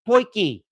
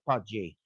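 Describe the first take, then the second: First: The middle consonant is a hard k sound. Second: The middle consonant is a soft j sound. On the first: The speaker calls it right. "it is uh, pronounced poiki" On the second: The speaker calls it wrong. "at first, I was actually pronouncing it pudgy"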